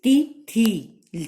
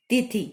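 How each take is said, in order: First: तिथि drawn out slowly, each vowel held long; slow, louder teacher's तिथि; stretched tithi. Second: तिथि said short and clipped, like the wrong spelling; quick short तिथि; short quick tithi. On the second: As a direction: say तिथि fast, vowels short. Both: Shown as a demonstration. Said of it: "जबकि होता क्या है?".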